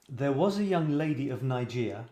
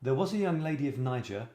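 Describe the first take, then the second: First: Nigeria said as nai-JEER-ee-a in the first line of the limerick; first take saying Nigeria, not Niger; wrong place name. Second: Niger said as NYE-jer, two syllables, rhyming with tiger; corrected take with Niger as NYE-jer; corrected place name. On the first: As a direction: read Nigeria with the extra syllable by mistake. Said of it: "No, sorry, Niger". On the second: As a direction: read Niger so it rhymes with tiger. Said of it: "I guess it must be Niger". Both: Shown as a demonstration.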